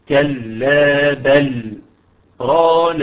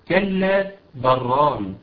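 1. توجد سكتة صامتة قصيرة بعد 'bal'. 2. 'bal' يتصل بـ 'ran' مباشرة دون سكتة. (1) "هنا سكتة لطيفة بمقدار حركتين" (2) "نشيل السكتة فهيقول إيه؟ هيقول كلا بران"

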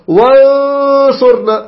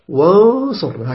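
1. الصوت مضغوط في الفم، وأقل أنفية. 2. الرنين الأنفي والفموي متوازنان بالتساوي. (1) "ولا تضغط على التجويف، تقول وانصرنا، خطأ أيضا" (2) "تقول توازن وانصرنا هكذا"

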